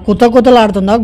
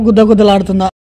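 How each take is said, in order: First: కుత కుతలాడుతుందా with k and t throughout; కుత కుతలాడుతుందా, k at the start, t inside; kuta-kuta sound. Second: గుద్ద గుద్దలాడుతుందా with g and d throughout; గుద్ద గుద్దలాడుతుందా, g at the start, d inside; misheard gudda-gudda. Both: Shown as a demonstration. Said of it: "మస్తు doubt అంటే మస్తు doubt".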